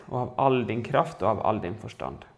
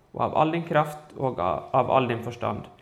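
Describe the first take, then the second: Both takes have the same delivery.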